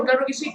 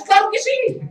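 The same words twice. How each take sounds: First: Said in the usual way. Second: "Claro" pushed high and louder; hammed-up eager "Claro que sí", much higher; emphatic claro. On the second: Preacher mocks a believer's proud "Claro que sí", emphatic. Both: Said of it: "y luego decimos".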